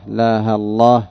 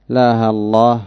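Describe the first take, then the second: The two takes are said the same way.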